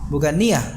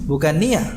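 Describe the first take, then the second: No difference in how they are said.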